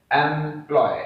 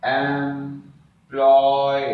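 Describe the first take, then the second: First: Said in the usual way. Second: "employ" as एम, pause, long loud ploy; stretched syllable division. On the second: Shown as a demonstration. Teacher showing the syllable division, "employ" slowly stretched in two. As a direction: stretch both syllables of "employ", louder and very slow. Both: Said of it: "इसका जो syllable division होगा".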